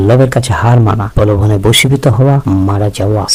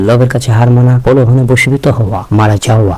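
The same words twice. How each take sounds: The two takes are said the same way.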